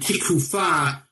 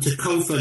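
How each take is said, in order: First: It uses modern Hebrew vowels, sounding like tikufa. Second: It uses Ashkenazi vowels, sounding like tokofa. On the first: "It's really the Hebrew tikufa"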